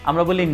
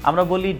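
The two takes are said the same way.

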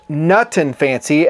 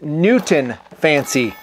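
First: The name begins with the sounds of 'nut and'. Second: The name begins with the sounds of 'Newton'. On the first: The speaker calls it right. "It's Nutton Fancy" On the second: The speaker calls it wrong. "you have me listed as Newton Fancy"

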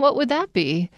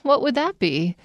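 First: The voice sounds doubtful and a little mocking. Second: The same.

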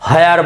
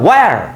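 First: The word begins with an 'h' sound. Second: The word begins with a 'w' sound. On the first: The speaker calls it wrong. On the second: The speaker calls it right.

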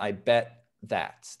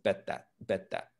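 First: The T and the TH are said separately with a break. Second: The T and the TH run together with no break. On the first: The speaker calls it wrong. "But definitely not" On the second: The speaker calls it right. "There's really no pause there. The T and the TH kind of come together"

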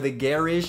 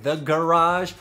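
First: Garage is pronounced the British way. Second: Garage is pronounced the American way.

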